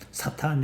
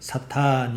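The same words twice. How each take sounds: First: The vowel is said short. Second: The vowel is held long. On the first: It is a verb meaning to oppose. "이렇게 짧게 발음하면 대적한다 이런 뜻이에요" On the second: It is a noun meaning adversary. "명사 사탄 이러면 명사고"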